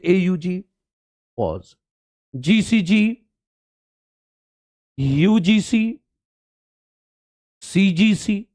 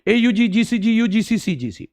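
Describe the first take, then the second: First: Each codon is separated by a pause. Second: The codons run together without any pauses.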